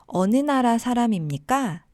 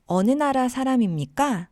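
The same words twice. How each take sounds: The two takes are said the same way.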